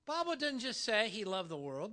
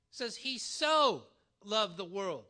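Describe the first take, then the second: First: Said in the usual way. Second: So stretched and falling, slow; so loved, slowed down, so leaned on hard; stress on so. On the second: Shown as a demonstration. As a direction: hit so in so loved the world. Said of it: "That's different".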